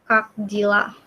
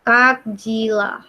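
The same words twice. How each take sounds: First: Said in the usual way. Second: "Kak Jila" slowly, both words lengthened; slow pronunciation demo. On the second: Shown as a demonstration. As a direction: draw out "Kak Jila" for learners. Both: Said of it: "bacanya jadi Kak Jila".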